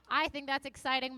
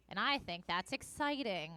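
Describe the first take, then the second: First: A bit more upbeat, lifted; more enthusiastic. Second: Said in the usual way. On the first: Shown as a demonstration. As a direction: give it some energy this time. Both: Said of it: "it's a very low energy morning".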